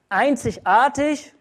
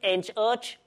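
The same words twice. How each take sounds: First: It is said in standard German pronunciation. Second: It is said in a Saxon dialect accent.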